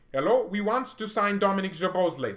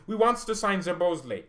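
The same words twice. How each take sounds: First: High, loud hammed-up German accent; exaggerated German accent, pitched up; mock German accent. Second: High, loud hammed-up German accent; a goofy German-accented coach; mock German Nagelsmann. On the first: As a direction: play a Leipzig exec in a silly German accent. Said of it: "That's R B Leipzig". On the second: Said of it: "That's how Julian Nagelsmann sounds".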